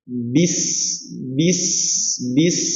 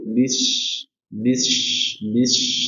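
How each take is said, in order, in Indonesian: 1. Bunyi s jelas dan tegas, seperti s. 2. Bunyi s sedikit condong ke sh.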